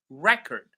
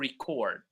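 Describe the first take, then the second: First: The stress is on the first syllable. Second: The stress is on the second syllable. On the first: It is used as a noun. "when these words are nouns, we stress the first syllable" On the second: It is used as a verb. "When they are verbs, we stress the second syllable"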